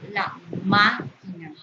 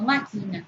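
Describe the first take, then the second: First: "máquina" slowly, with MÁ punched; slow, corrected MÁ-quina; stress on first syllable. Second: "máquina" misread as ma-QUI-na; stress off first syllable. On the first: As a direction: lean hard on the má of "máquina", then let it fall. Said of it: "Acento prosódico en ma". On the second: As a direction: say "máquina" with the weight wrongly on qui. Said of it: "No máquina". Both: Shown as a demonstration.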